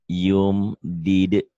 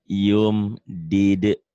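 No difference in how they are said.

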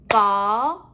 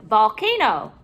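First: VOLCANO in three long, separate syllables; a beat on each syllable of VOLCANO; clapped-out syllables. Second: Said in the usual way. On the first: Shown as a demonstration. Teacher clapping out syllables for pupils, one beat at a time. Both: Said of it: "We're going to clap out the syllables".

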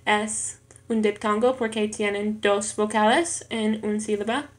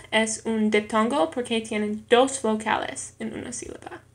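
The two takes are said the same way.

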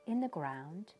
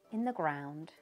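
Both takes have the same delivery.

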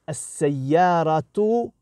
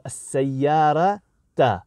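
First: Slow "as-sayyaratu" ending in a clear -u; "as-sayyaratu" with the nominative -u. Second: Slow "as-sayyarata" ending in a clear -a; "as-sayyarata" with the accusative -a. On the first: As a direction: draw out "as-sayyaratu", final u sounded. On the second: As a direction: draw out "as-sayyarata", final a sounded. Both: Shown as a demonstration. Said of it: "it will change the word".

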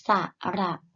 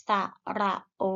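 First: โอ held long and steady; long vowel. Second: โอ cut short with an abrupt stop; short vowel. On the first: Teacher models vowels for pupils to repeat, long โอ. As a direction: say ระโอ with a drawn-out final vowel. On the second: Teacher models vowels for pupils to repeat, short โอ. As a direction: say ระโอ with a brief, checked final vowel. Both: Shown as a demonstration. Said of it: "ไปฝึกอ่านออกเสียงสระ".

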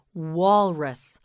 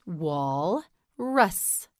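First: Said in the usual way. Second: "Walrus" split into wal... rus; syllable by syllable. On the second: Shown as a demonstration. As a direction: leave a clear pause inside "Walrus". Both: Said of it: "You say it".

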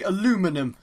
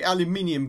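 First: "aluminum" said the American way, without the second i; American pronunciation. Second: "aluminium" said the English way, with an extra i; British pronunciation. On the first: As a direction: say "aluminum" as a-LOO-mi-num. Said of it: "as you Americans would say". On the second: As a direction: say "aluminium" as al-yoo-MIN-ee-um. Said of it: "Us English people say aluminium". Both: Shown as a demonstration.

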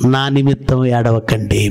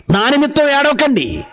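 First: Slow, lower delivery; measured scripture quote. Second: నా నిమిత్తం lifted high, falling at the end; emphatic repeat. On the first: Preacher quoting Jesus's words to the congregation, measured scripture quote. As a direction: quote it slowly and solemnly. Quotes the verse solemnly, then repeats it. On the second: Preacher repeating the verse to correct mourners, నా నిమిత్తం pitched high in emphasis. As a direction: drive home నా నిమిత్తం ఏడవకండి, pitched well up. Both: Acted.

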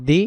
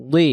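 First: "দি" with a light, thin d; light dal. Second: "দি" with a thick, heavy d; heavy dad. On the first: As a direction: say "দি" as a plain Arabic dal. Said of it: "এটা হবে দি". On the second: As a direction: make "দি" a full emphatic dad. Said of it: "মোটা দি". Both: Shown as a demonstration.

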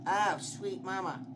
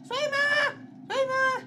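First: Said in the usual way. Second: Very high, loud repeated shriek; panicked scream. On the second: Real, not acted. Player panics in game, screaming. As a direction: scream it in alarm.

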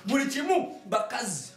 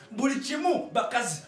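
No difference in how they are said.

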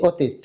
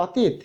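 First: "অতীত" as "o-teet"; closed o. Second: "অতীত" starting with open "aw"; open vowel. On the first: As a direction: round the first vowel of "অতীত" to ও. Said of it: "ওর মতো উচ্চারণ করি". (ও দিয়ে শুরু "অতীত") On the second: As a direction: say "অতীত" as written, unrounded first vowel. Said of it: "কিন্তু আমরা কি বলি". (খোলা অ দিয়ে "অতীত") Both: Shown as a demonstration.

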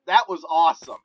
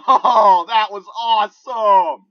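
First: Pleased, a little louder than usual; contained excitement. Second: Loud, high, drawn-out triumph with laughter; elated yelling. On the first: Player recapping the headshots, contained excitement. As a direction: still thrilled, but without the yelling. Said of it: "I am just so excited". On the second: Player celebrating two quick headshots, elated yelling. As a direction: laugh and yell it out slowly, thrilled. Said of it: "I'm sorry if I'm yelling". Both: Real, not acted.

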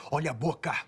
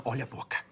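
First: "Olha a boca" louder and higher, stressing "boca"; sharper warning. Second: Said in the usual way. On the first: Acted. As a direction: repeat the warning harder, hitting "boca". Repeats warning more sharply. ("Olha a boca" mais alto e ríspido)

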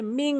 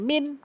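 First: মিং with a nasal ng hum; nasalised "ming"; with ghunnah. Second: মিন ending on a short clear n; brief plain "min"; without ghunnah. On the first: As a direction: let মিং ring in the nose. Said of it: "গুণনা করলে". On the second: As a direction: cut মিন off with no hum. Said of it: "গুণনা করলে মিং". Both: Shown as a demonstration.

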